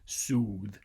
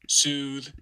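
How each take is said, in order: First: The vowel is pronounced far back in the mouth. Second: The vowel is pronounced forward in the mouth. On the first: The speaker calls it wrong. "going all the way back for an ooh, soothe. Uh, you don't normally say it that way" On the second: The speaker calls it right. "It's easier, uh, at least intuitively, to say it soothe"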